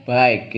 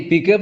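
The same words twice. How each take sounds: First: "baik" as English byke, drawn out slowly; correct English reading. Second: "Bige" sounded out as bee-kuh, pitched up; read as spelled. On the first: Teacher giving the class the reading, "baik" as byke. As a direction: say "baik" with an eye vowel, one syllable. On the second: Teacher showing how bike is written, "Bige" as bee-kuh. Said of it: "Bige bacanya". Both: Shown as a demonstration.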